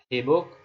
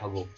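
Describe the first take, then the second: First: The first vowel is an i sound. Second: The first vowel is a u sound. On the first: The speaker calls it wrong. "hibuk ini masih diragukan, tidak menjadi standar" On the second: The speaker calls it right. "huruf pertama itu atau fa fi'ilnya berbaris dhammah. Jadi dibaca hubuk"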